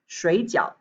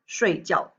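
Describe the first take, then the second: First: Its tones make the word mean dumplings. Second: Its tones make the word mean to sleep. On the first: It means dumplings. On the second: It means to sleep. "to sleep"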